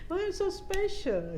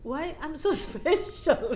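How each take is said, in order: First: Much higher, slow marvelling; repeating her question to God, higher; wondering question. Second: Slow, chuckling mock question; asking God with amused wonder; laughing disbelief. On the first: Retold or imitated. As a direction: stretch it out in amazement. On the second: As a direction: laugh through the word special.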